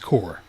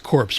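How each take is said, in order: First: The word ends without a 'ps' sound. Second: The word ends with a 'ps' sound. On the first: The pronunciation that everybody else uses. "Everybody else says core" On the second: An unusual pronunciation that only one person uses. "only Obama says corpse"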